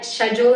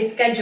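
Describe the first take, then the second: First: The word begins with a 'sh' sound. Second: The word does not begin with 'sh'. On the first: This is how people in India say it. "I don't say sh- I, schedule anymore" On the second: This is how the speaker says it now. "I say schedule"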